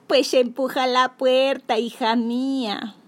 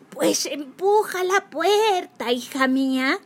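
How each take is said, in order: First: Slow, kind granny voice; sweet old lady. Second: Higher, slow fake granny voice; wolf playing a sweet granny. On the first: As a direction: invite her in like a gentle granny. Grandma invites her in. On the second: Wolf posing as grandma. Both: A narrator's reading.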